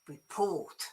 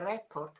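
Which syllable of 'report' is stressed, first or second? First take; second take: second; first. First: The stress is on the second syllable. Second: The stress is on the first syllable. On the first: The speaker calls it right. "It's on the port. So it's report" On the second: The speaker calls it wrong. "is definitely not a re- report"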